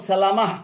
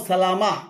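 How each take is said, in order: Both takes have the same delivery.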